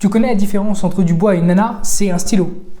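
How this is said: The punchline follows the question immediately.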